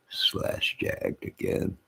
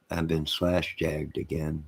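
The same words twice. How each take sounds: First: Slowly whispered 'slash jagged again'; despairing drawn-out whisper. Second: Said in the usual way. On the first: Real, not acted. Repeats phrase, whispered and drawn out.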